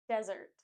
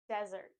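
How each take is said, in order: Both takes have the same delivery.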